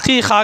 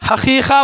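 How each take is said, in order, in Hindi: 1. शब्द की शुरुआत गले से निकलने वाली ayn ध्वनि से होती है। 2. शब्द की शुरुआत h ध्वनि से होती है। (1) "ये अरबी में आइन से आता है" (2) "लोग नॉर्मल से उर्दू में ही हकीक़ा बोलते हैं, हकीक़ा नहीं होता है"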